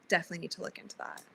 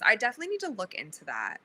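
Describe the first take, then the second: First: Softer and fast, repeated under the breath; a quick note to yourself, almost aside; muttered to self. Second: Said in the usual way. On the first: Real, not acted.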